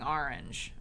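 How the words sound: The word has a New York pronunciation. This is how the speaker says it now. "that's like very New York to say orange"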